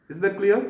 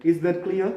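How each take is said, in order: Both takes have the same delivery.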